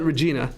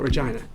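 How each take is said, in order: First: The word does not rhyme with vagina. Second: The word rhymes with vagina. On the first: An alternative used to avoid an awkward-sounding word. "they'll call it Regina" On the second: The usual local way of saying the name. "it's too close to this word"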